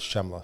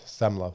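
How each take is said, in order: First: The name begins with an sh sound. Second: The name begins with a plain s sound. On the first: This is how other parts of the world say it. "other parts of the world is Shemla" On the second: This is the Italian way of saying it. "if you're Italian, ... it's Semla, silent C"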